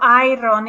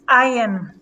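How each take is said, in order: First: The R sound is clearly pronounced. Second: The R sound is dropped. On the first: The speaker calls it wrong. "So it's not iron" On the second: The speaker calls it right. "we eliminate the R"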